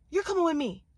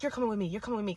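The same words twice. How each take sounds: First: Higher-pitched, forceful order; insistent demand. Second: Said in the usual way. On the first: Retold or imitated. Woman claiming the man in the car, forceful demand. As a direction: demand it, pitch up and falling hard.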